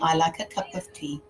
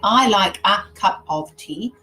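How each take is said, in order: First: 'A' and 'of' are weak schwa sounds. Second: 'A' and 'of' have full, strong vowels. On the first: The speaker calls it right. "I'm saying" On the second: The speaker calls it wrong. "I'm not saying"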